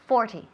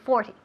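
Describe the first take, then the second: Both takes have the same delivery.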